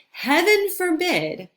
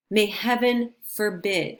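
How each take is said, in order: First: "heaven forbid" swooping much higher, hammed-up; mock-scandalized cry of "heaven forbid"; dramatic exclamation. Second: Said in the usual way. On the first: Shown as a demonstration. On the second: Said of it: "like, heaven forbid".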